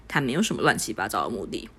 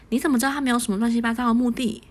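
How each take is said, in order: First: Said in the usual way. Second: Teasing. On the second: Acted. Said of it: "许静开玩笑道".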